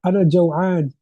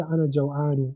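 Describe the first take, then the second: First: أنا جوعان with the final vowel dropped; أنا جوعان, no case ending; casual pronunciation. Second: أنا جوعان with every vowel, ending in جوعاني; أنا جوعان fully vowelled; full vowels. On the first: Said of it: "speak, you can say". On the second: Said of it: "if you want to pronounce all the vowels". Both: Shown as a demonstration.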